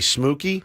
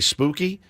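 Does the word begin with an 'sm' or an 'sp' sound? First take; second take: sm; sp. First: The word begins with an sm sound. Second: The word begins with an sp sound. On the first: "They say smooky" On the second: "Neither of them can say or don't say spooky"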